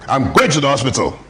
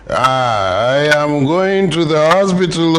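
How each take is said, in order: First: It is said like an angry man. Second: It is said like a drunkard.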